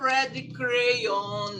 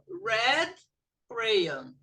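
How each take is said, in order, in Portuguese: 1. A primeira sílaba de crayon não é mais forte. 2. A primeira sílaba de crayon é falada mais forte. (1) "não é red crayon" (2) "a parte que vem primeiro vai mais forte"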